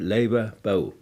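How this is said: The diphthong in the last word starts with o. "gestürzten Zwielaute"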